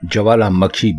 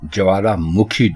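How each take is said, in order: First: The syllable before 'khi' has an 'a' vowel. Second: The syllable before 'khi' has a 'u' vowel. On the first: The speaker calls it wrong. "ज्वालामखी बिल्कुल गलत है" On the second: The speaker calls it right. "ज्वालामुखी दुरुस्त है"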